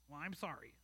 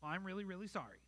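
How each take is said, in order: First: Sulky, mumbled and much softer; a child's reluctant, muttered sorry; grudging apology. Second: Softer, an overdone "really, really" that still isn't meant; a child hamming up a second apology; forced sincerity. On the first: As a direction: say sorry without meaning it. Child forced to apologize to parent. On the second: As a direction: pile on the "really" to fake meaning it. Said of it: "like you mean it". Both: Retold or imitated.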